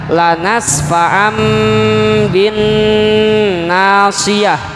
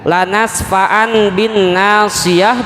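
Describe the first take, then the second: First: The nasal before the b is an m. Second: The nasal before the b is an n.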